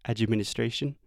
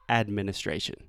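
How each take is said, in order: First: The d is followed by an added 'chi' vowel. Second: The d runs straight into the m sound. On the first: The speaker calls it wrong. "So instead of admi" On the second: The speaker calls it right. "you want to say administration. Make sure that you are avoiding that ch sound"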